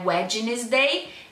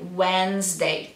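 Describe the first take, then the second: First: The d in the middle is pronounced. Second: The d in the middle is silent. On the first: The speaker calls it wrong. "Não é Wednesday" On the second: The speaker calls it right. "como se fosse W E N Z"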